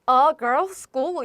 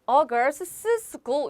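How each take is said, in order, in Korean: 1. 'girls'는 한 음절이고, 덧붙는 s 소리는 없어요. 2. 'girls'는 덧붙은 s 때문에 음절이 하나 더 생겨요. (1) "그래서 a girls school 이라고 해야지" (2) "이렇게 하지 않는다. 발음이 계속 미끄러지는 느낌"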